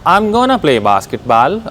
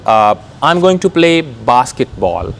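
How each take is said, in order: First: 'Going to' is reduced to one word, 'gonna'. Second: Each word of 'going to' is said separately.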